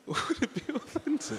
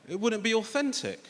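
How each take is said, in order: First: High, silly mocking voice; mocking echo. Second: Said in the usual way. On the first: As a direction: parrot it back in a high voice, laughing it off. Mockingly repeats his friend's words.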